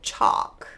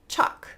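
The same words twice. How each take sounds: First: A dark L is heard before the k. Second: The vowel runs straight into k without L. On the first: "You could move it backwards and go chalk" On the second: "They're just going to be pronounced with a vowel sound"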